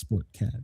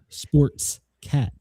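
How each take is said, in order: First: No 's' sound follows 'sport'. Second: An 's' sound follows 'sport'. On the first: The speaker calls it right. "and it's sport cat" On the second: The speaker calls it wrong. "it always adds an S to sports cat"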